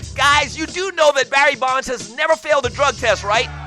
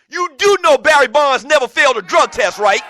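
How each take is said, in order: First: It is said in a put-on white guy voice. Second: It is said in his own normal voice.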